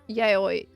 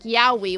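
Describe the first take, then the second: First: The vowels run together with no W sound. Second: The lips close for a W sound mid-word. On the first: The speaker calls it right. "technically is how you say that" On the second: The speaker calls it wrong. "if your lips touch in the middle like yowie when you're saying a W, you're getting it wrong"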